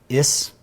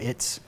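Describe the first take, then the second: First: The t sound before the final s is dropped. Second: The t sound before the final s is pronounced. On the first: "it was more like is" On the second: "instead of it's"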